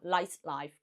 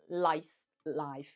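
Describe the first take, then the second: First: The two words run together without a pause. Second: There is a gap between the two words. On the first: The speaker calls it right. "即係中間係冇停頓嘅" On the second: The speaker calls it wrong. "中間係有兩個字，兩係有個 gap 嘅"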